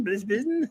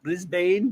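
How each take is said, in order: First: BRISBANE squashed to "BRIZ-bin", higher and rising; mock Aussie pronunciation. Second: BRISBANE with a full "bane" ending, questioning; American pronunciation. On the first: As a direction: echo "Brisbane" with a short "bin" ending. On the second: Retold or imitated. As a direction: echo "Brisbane" as "BRIZ-bayn", rising at the end. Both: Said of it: "saying Brisbane instead of Brisbane".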